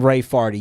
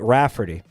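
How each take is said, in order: First: The first syllable is said as 'ray'. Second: The first syllable is said as 'rah'. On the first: The new spelling changes the name into a different word. "you'd pronounce it in any other way than" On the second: This is the intended family name. "you would not pronounce it Rafferty"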